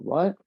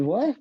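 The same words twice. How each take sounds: First: A mild questioning rise; asking what, lightly puzzled; own puzzled what. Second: A much higher, louder "What?"; mock the dad's disbelief, pitched up; dad's incredulous what. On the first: Retold or imitated. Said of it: "I said". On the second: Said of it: "He said".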